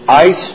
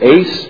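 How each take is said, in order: First: The vowel sounds like the one in 'ice'. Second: The vowel sounds like the one in 'ace'. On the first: "It's the word ice" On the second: "as some people pronounce it"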